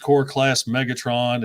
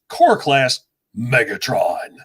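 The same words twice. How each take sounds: First: The name is said in a flat, monotone voice. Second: The name is said in a lively, changed voice. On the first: "I was so monotone" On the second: "I love when you change your voice"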